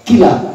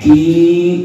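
First: The vowel after the k is kept short. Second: The vowel after the k is held long. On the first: "dibaca pendek kila gitu" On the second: "den baca panjang ki gitu"

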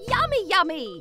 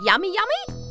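First: It sounds convinced and really hungry. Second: It sounds hesitant and unsure.

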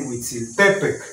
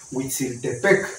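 First: The stress is on the second-to-last syllable. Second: The stress is not on the second-to-last syllable. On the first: The speaker calls it right. "Se tendría que decir Huitzilopochtli" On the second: The speaker calls it wrong. "el acento está mal porque no se dice Huitzilopochtli"

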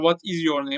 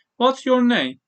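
First: The words 'what is' are said separately. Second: The words are joined into 'what's'. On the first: "Burada bunu ayrı yazdım bu arada" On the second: "Ama bunu birleştirin"

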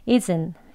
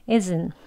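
Both takes have the same delivery.

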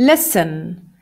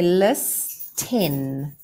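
First: The t is silent in the middle. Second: The t is clearly pronounced in the middle. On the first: "there's a magic secret little t that we can't hear actually" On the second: "So in my head, I say list 10"

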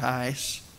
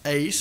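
First: The vowel sounds like the one in 'ice'. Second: The vowel sounds like the one in 'ace'. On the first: "sometimes people pronounce it sounding like ice" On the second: "The Greek word is pronounced ace"

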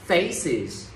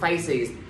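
First: The word is said with clear stress. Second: The word is said without clear stress. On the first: The speaker calls it right. "phải có trọng âm" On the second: The speaker calls it wrong. "không được faces"

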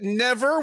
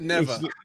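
First: The final R is pronounced strongly. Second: The final R is soft or dropped.

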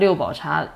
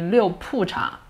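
First: The second syllable is pronounced bao. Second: The second syllable is pronounced pu. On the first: This is the common everyday reading of the character. "we call that Liu Bao Cha" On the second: This is the reading used for a place name. "the character should be Liu Pu Cha"

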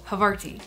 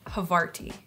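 First: The word is said quickly. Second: The word is said slowly.

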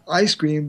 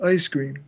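First: The vowel in ice starts low and open. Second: The vowel in ice starts higher, raised. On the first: "not ice cream" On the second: "It's called Canadian raising, where people say"

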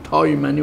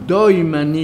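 First: The first word starts with a T sound. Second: The first word starts with a D sound. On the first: "قوم دیگه او رو به صورت تای تلفظ میکرده" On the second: "همون دای"

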